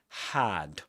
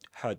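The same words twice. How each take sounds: First: The vowel is a full, strong vowel. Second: The vowel is reduced to a schwa. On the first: The speaker calls it right. "pronounced with um in its strong form" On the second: The speaker calls it wrong. "not had, had with a schwa"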